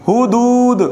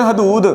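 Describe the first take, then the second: First: The first vowel is a short 'u'. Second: The first vowel is a short 'a'. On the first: The speaker calls it right. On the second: The speaker calls it wrong.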